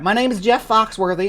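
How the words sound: It is read in a put-on Missouri accent.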